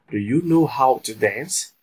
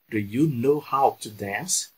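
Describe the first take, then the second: First: Said in the usual way. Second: Slow, careful repeat of Do you know how to dance; teacher drilling the question slowly for students; slow model sentence. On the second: Shown as a demonstration. Slow, deliberate drill voice. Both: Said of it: "já vou colocar aqui na prática".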